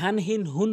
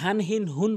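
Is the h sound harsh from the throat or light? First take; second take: light; light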